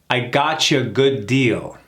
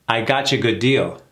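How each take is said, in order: First: The sentence is said slowly and carefully. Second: The sentence is said at a moderate speed. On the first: "Let's do it slow first" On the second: "Now let's do it again a little faster"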